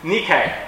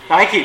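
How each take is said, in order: First: It is said like the original Greek word. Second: It is said like the English brand name. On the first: It is the original Greek word for overcome. "The actual pronunciation is Nike" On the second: It names the shoe brand. "Nike, that's right"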